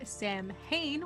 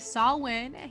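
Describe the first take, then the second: First: The m and h letters are sounded. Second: The m and h letters are not sounded. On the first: The speaker calls it wrong. "He said Samhain, which is S A M H I N" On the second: The speaker calls it right. "he did not say Samhain"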